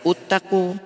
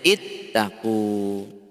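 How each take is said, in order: First: The word begins with a u vowel. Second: The word begins with an i vowel. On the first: The speaker calls it wrong. "Ada yang baca uttaqu" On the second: The speaker calls it right. "maka bacanya ittaqu"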